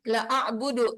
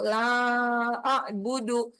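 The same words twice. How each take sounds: First: The vowel of the first word is clipped short. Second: The vowel of the first word is held long. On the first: The speaker will surely worship what the others worship. The speaker calls it wrong. "salah itu. Artinya kalau pendek" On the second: The speaker will not worship what the others worship. The speaker calls it right. "Kita baca panjang tuh"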